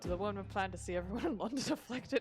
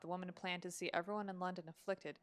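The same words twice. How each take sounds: First: It is read in a put-on Irish accent. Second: It is read in the speaker's ordinary accent.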